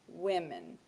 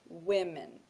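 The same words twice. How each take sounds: First: The stress is on the first syllable. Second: The stress is on the first syllable.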